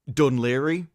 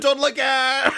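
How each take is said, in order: First: The name ends with a 'leery' sound. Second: The name ends with a 'gair' sound. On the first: This is how locals say the name. The speaker calls it right. "it's called Dunleary" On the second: The name is read as it is spelt. The speaker calls it wrong. "my mum was like, "We're going to Dunlegair.""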